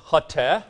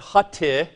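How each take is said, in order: First: "hate" as Greek hote, ending in short eh; Greek hote pronunciation. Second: "hate" mispronounced as hoti, ending in ee; wrong Greek ending. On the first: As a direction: say "hate" slowly as two syllables, HOT-eh. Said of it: "It's omicron tau epsilon". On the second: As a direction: say "hate" slowly as two syllables, HOT-ee. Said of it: "No, it's not hate". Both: Shown as a demonstration.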